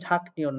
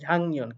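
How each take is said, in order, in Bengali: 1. 'nyeon'-এর আগে 'k' ধ্বনি আসে। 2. 'nyeon'-এর আগে 'ng' ধ্বনি আসে। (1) "সঠিক উচ্চারণ ঝাঁকনিয়ন না" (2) "এটা সঠিক উচ্চারণ ঝাংনিয়ন"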